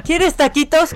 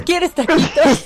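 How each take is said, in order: First: Doting mother. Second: Sing-song motherly offer; doting mother. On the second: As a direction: coo it like a doting mom. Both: Retold or imitated. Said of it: "atenta a ver qué voy a comer".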